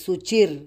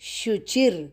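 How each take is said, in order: First: The word begins with a plain 's' sound. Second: The word begins with an 'sh' sound. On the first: The speaker calls it wrong. "यह गलत उच्चार है" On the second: The speaker calls it right. "यहाँ पे सही उच्चार"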